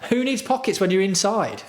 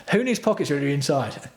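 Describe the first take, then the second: First: Higher sarcastic repeat of the line; mocking voice. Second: Said in the usual way. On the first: Streamer repeating his jersey joke, higher mocking voice. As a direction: savour the joke in a raised mock tone.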